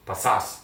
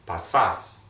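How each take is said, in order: First: Said in the usual way. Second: "Pasas" drawn out, louder, last syllable stressed; slower model pronunciation. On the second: Shown as a demonstration. Teacher drilling students on the verb, "Pasas" slow with the final syllable stressed. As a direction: stretch both syllables of "Pasas" for learners to copy. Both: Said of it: "Let's go back, slower".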